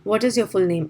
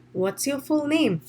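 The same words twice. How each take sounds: First: "What is" as two separate words; full-form "What is your full name", no contraction; uncontracted "What is". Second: "What's" as one syllable; "What is" squeezed into "What's"; contracted "What's". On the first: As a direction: sound "is" fully after "What". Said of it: "They're not saying". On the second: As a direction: ask "What's your full name" with the contraction. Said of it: "they're using a contraction". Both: Shown as a demonstration.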